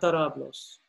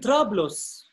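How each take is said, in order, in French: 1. Une voyelle sépare les deux premières consonnes. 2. Les deux premières consonnes se prononcent ensemble. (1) "Avec un micro, ça devient tarablos" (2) "On dit trablos"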